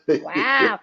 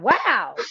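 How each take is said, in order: First: The word is stretched out long. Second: The word is said short and quick. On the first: "When they extend the wow" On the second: "not wow"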